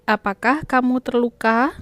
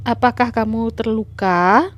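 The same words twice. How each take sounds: First: Apakah kamu terluka? with a rise on the end; question tune. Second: Apakah kamu terluka? read with a rising question tune. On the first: Teacher models a question intonation for pupils. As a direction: ask it with a clear rising tune. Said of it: "Gunakan intonasi yang benar ya". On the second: Teacher models a question for the class with rising tune. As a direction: ask it gently, rising at the end. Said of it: "ada tanda tanya di akhir kalimat". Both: Shown as a demonstration.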